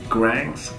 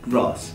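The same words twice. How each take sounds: First: The vowel is a flat, front a sound. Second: The vowel is a broad, open ah sound. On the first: The speaker calls it wrong. "美国人他们会读 grass" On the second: The speaker calls it right. "A 字母一定要读 uh"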